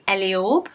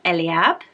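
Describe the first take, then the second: First: The last syllable has a long 'or' vowel. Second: The last syllable has a short 'a' vowel. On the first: "some sites would pronounce this Eliorb and have a longer orb" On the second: "in the U K we would trend towards an ab"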